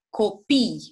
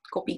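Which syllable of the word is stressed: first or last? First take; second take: last; first. First: The stress is on the last syllable. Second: The stress is on the first syllable. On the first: Children. "accentuez pe ultima silabă" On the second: Photocopies. "copii xerox"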